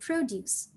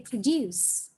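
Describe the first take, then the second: First: It has the stress pattern of the noun. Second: It has the stress pattern of the verb. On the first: It names a thing that is made or grown. "But when it's a noun, you say produce" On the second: It names an action of making something. "When it's a verb, you say produce"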